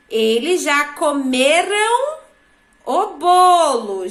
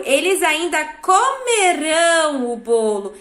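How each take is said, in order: First: Slow teacher's example, COMERAM drawn out with stress on ME; past-tense ending demo. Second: Teacher's example, lean hard on the -ÃO of "comerão"; future-tense ending demo. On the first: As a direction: stretch out "comeram", stressing ME, unstressed final -ram. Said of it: "o an é passado". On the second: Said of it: "e que o ão é no futuro". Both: Shown as a demonstration.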